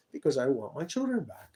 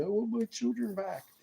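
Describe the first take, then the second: First: Said in the usual way. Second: A lot higher, imitating his own tearful plea; pitched-up mock of himself pleading "children back"; retold crying plea. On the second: Quoting himself to the recording police, high tearful plea. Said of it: "as they're recording me crying".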